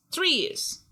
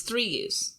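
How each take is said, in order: First: Much higher, stressed correction; high emphatic. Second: Said in the usual way. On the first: Shown as a demonstration. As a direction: squeak it out emphatically.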